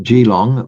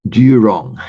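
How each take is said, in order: First: Geelong said as "jee-long", the wrong local form; mispronounced Geelong. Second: Geelong said as "joo-rong", the correct local form; local pronunciation of Geelong. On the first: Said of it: "not Geelong, but Geelong". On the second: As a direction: give Geelong its local "joo-rong" sound, a little louder. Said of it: "not Geelong, but". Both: Shown as a demonstration.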